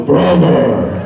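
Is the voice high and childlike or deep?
deep. It is said in a deep, low voice. This is the character as voiced after the voice dropped. "today's Alphonse"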